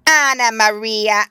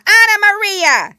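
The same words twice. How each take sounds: First: Slow, loud squeaky call of a rat; an old rat calling out for his wife; twitchy squeaking rat voice. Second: Very high, very loud squeal of a rat; a rat shrieking the name out; twitchy squeaking rat voice. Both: Acted. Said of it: "squeaked the rat".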